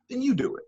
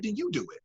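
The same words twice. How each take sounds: First: "Then you do it" said high and at full level, stress on "you"; high, firm repeat; full-voiced repeat. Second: Said higher but dropped much softer; quiet high take; softer first take. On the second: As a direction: lay "then you do it" down quietly, high. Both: Shown as a demonstration.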